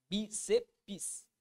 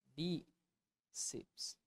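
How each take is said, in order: First: BÍCEPS as "bi-ce-pis", three beats; three-syllable pronunciation. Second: BÍCEPS as "bí... ceps", quiet with a long gap; split in two syllables. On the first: Student showing how they pronounce it, bíceps in three syllables. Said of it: "eu falo assim". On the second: Teacher showing how bíceps divides, softly in two syllables. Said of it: "como é a separação da palavra bíceps". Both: Shown as a demonstration.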